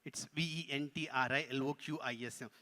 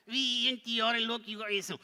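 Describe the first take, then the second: First: Said in the usual way. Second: Higher, louder puppet spelling; parroting puppet. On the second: Pretend.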